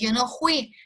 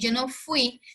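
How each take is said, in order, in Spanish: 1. La palabra fui tiene una pronunciación regional. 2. La palabra fui tiene su pronunciación estándar. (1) "porque ellos así pronuncian ese fui" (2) "en lugar de decir yo no fui"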